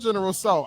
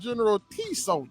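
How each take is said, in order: First: The name is said without a T sound. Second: The name is said with a T sound.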